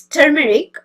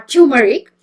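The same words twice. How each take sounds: First: Turmeric with a "tur" first syllable; turmeric, first syllable like "term"; TER-meric pronunciation. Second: Turmeric said as TYOO-muh-rik; turmeric, first syllable like "tune"; TYOO-meric pronunciation. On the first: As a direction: say turmeric as TER-muh-rik. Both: Shown as a demonstration. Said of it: "it is differently called".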